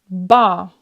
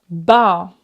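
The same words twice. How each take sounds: The two takes are said the same way.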